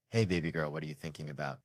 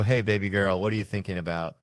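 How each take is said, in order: First: Soft, low loving dad murmur; tender fatherly. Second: Said in the usual way. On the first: Acted. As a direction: speak softly to your little girl. Father's tender dream moment.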